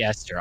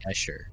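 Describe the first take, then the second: First: The middle of the name has an 'st' sound. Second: The middle of the name has an 'sh' sound. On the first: The speaker calls it right. "But it should be Esther" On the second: The speaker calls it wrong. "my brain just makes it an sh, and I say Escher"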